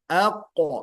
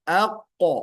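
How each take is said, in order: No difference in how they are said.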